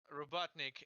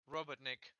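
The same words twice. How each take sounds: First: The stress is on the middle syllable. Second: The stress is on the last syllable. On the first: The speaker calls it wrong. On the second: The speaker calls it right.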